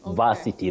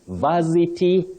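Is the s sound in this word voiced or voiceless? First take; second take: voiceless; voiced. First: The s is voiceless, a hissing s sound. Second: The s is voiced, like a z sound. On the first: The speaker calls it right. "takes what we call the unvoiced sound s" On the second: The speaker calls it wrong. "Varsity, no"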